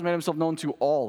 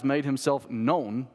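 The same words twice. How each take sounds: First: ALL held as the key word; stress on ALL. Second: KNOWN held and set apart before a pause; slow line landing on "known"; stress on KNOWN. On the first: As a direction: run through to a weighty "all". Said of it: "simply emphasize the word all". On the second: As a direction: lean on "known", stretch it out. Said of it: "I emphasize the word known". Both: Shown as a demonstration.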